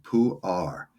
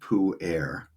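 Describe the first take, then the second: First: The name is said the Chinese way. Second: The name is said the Western way. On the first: The speaker calls it right. "no, you pronounce it pu-er" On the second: The speaker calls it wrong. "a lot of people in the West call it pu-erh"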